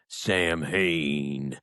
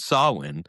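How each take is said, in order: First: The name is said like 'Sam Hain'. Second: The name is said like 'sow-in'. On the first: The speaker calls it wrong. "metalheads have no clue, so they were like" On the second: The speaker calls it right. "it was called Samhain"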